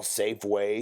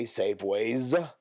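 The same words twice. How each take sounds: First: Said in the usual way. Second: "Safeways" drawn out with a final S; "Safeways" said slowly, plural S stressed; S added at the end. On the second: Shown as a demonstration. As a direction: stretch "Safeways" and land on the S. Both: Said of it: "They add a S".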